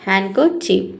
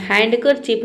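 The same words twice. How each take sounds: First: हैंडकरचीफ with no D, as "han-ker-chief"; silent D. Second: हैंडकरचीफ with a clear D, "hand-ker-chief"; D sounded. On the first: Teacher models the word for students, हैंडकरचीफ with silent D. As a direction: drop the D in हैंडकरचीफ. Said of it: "यहाँ पे अब हम पढ़ते हैं". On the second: Teacher shows students the mistake, हैंडकरचीफ with sounded D. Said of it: "नहीं पढ़ेंगे". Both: Shown as a demonstration.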